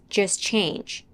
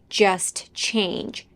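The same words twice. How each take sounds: First: The T at the end of 'just' is dropped. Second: The T at the end of 'just' is pronounced. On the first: "the T in just" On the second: "She doesn't say just change"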